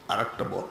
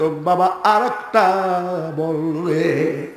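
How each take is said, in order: First: Low, very soft plea; hushed request. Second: Drawn-out, sing-song plea; imitated tearful pleading. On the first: Acted. Preacher repeats the aunties' request for more, low and hushed. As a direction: drop right down and ask quietly. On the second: Preacher voices village aunties asking for another ghazal, pleading tunefully. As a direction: stretch the last words as if begging tearfully. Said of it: "মা চাচিরা কান্ত".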